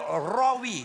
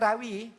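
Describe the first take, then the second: First: The first sound is heavy and thick. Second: The first sound is light, like the Malay name. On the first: The speaker calls it right. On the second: The speaker calls it wrong. "kita tak boleh pula sebut"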